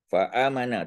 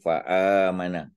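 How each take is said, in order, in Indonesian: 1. Dibaca dengan cepat, vokalnya dibaca pendek. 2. Dibaca dengan lambat, vokalnya ditahan panjang. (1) "Kita tak boleh baca laju kan?" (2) "mat asli dua harakat"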